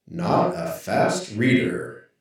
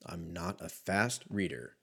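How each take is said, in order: First: "Not a fast reader" slow, louder, each word stressed; slow, louder emphatic repeat. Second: Said in the usual way. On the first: Real, not acted. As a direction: drag it out to drive the point home.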